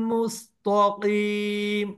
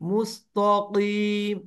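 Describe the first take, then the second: No difference in how they are said.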